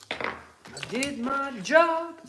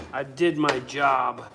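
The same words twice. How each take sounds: First: High, very slow, stretched out; drawn-out sing-song. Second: Said in the usual way. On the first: Acted. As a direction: drag it out like a mock proud boast. Repeats his line, drawn out.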